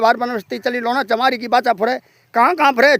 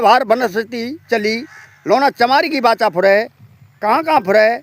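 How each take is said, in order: First: The words are recited at a fast pace. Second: The words are recited at a slow pace. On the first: "मंत्र की speed तेज होनी चाहिए" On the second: "धीरे धीरे बोल रहा हूँ"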